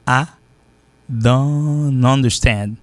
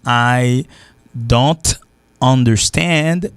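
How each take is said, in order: First: "I don't understand" as slow "ah... dannn-understand"; linked accent form. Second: "I", "don't", "understand" slowly, one by one; careful full pronunciation. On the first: Teacher showing the accent, "I don't understand" drawn out and linked. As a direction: stretch "don't" into "understand" without a T. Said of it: "T'es pas prononcé". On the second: Teacher before adding the accent, "I don't understand" word by word. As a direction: separate "I don't understand", sounding the T. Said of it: "normalement avec l'accent". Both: Shown as a demonstration.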